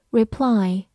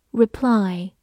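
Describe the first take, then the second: No difference in how they are said.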